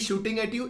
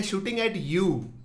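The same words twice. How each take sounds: First: Said in the usual way. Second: YOU drawn out slowly at the end; slow down and lean on "you"; stress on YOU. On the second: Real, not acted. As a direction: let "you" land long, falling at the end. Repeats it stressing personal target.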